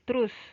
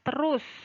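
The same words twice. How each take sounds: First: The word is pronounced loosely and carelessly. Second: The word is pronounced carefully and fully.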